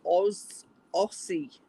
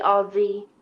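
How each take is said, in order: First: AUSSIE with a hissed S, not a Z; American-style mispronunciation. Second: AUSSIE with a buzzing Z, "Ozzie"; Z pronunciation. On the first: Retold or imitated. Australian mimicking Americans reading the word, AUSSIE with S sound. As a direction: say Aussie as spelt, "Oss-ee". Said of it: "a lot of Americans say". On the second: Shown as a demonstration. American showing how they say it, AUSSIE with Z sound. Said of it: "sounds like a Z".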